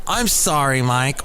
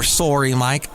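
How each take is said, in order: First: Said in the usual way. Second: Sorry said as "SORE-ee", Canadian style; a Canadian "Sorry", with a rounded O; Canadian accent. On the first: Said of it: "here's the other thing I don't like to hear". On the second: Retold or imitated. Quoting condolences he dislikes, in a Canadian accent. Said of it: "if you're Canadian".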